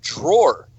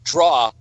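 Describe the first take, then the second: First: The word is said as 'drawer'. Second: The word is said as 'draw'. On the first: The speaker calls it right. "You pronounce it drawer" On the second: The speaker calls it wrong. "You do not pronounce D R A W E R, draw"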